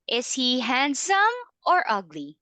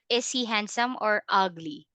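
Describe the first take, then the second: First: The pitch rises on handsome, falls on ugly. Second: The pitch stays flat throughout the question.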